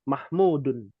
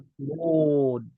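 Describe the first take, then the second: First: The word ends with a full added -un. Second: The word ends clipped, with no vowel ending. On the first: This is the fully voweled form with its case ending. "semua diharokati" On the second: This is the pausal form used at a stop. "Jangan diwakafkan"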